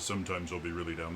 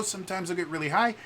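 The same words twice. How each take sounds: First: Low pitch. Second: Quick line lifted high, rising at the end; high pitch. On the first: Streamer showing viewers his expressive range, low pitch. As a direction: drop the voice down low. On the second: Streamer showing viewers his expressive range, high pitch. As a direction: jump up into a high register. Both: Shown as a demonstration. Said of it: "my pitch travels a lot".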